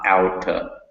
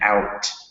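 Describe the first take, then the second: First: An extra vowel syllable follows the final consonant. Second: The word ends sharply on the final consonant. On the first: The speaker calls it wrong. "you added an extra syllable" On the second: The speaker calls it right. "you really cut the word off"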